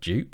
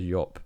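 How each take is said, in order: First: The name begins with a J sound. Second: The name begins with a Y sound. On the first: The speaker calls it wrong. "it was always known as like dupe, literally, typically English, you just said what you saw" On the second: The speaker calls it right. "I believe is how it's supposed to be pronounced"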